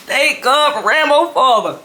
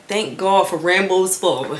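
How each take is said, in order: First: Higher, louder laughing thanks; relieved laugh. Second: Said in the usual way. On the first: Retold or imitated. Daughter relieved Rambo's father covered for her. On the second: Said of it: "I'm just like".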